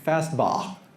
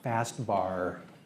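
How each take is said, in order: First: It is said with an Australian accent. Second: It is said with an American accent. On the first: "an Aussie who says" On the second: "So the American version"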